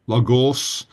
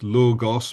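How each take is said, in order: First: The stress is on the second syllable. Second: The stress is on the first syllable. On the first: The speaker calls it wrong. "It's not logos" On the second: The speaker calls it right. "the line is over the first o"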